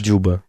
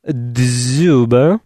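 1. Имя начинается без звука z. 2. Имя начинается с четкого звука dz.

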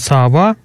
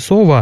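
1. Безударный первый гласный звучит как a. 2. Безударный первый гласный звучит как o. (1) "мы произносим «сава»" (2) "не «сова» ... как в северных говорах"

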